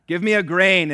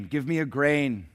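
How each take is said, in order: First: Beggar's desperate shout, much higher; pleading shout from the roadside; loud cry. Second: Pleading beggar cry, slow; slow pleading call. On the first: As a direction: yell out for a grain. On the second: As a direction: beg for a grain, drawn out. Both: A narrator's reading. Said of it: "cry out for a grain".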